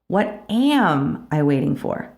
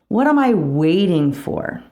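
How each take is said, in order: First: The stress is on "am". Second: The stress is on "waiting".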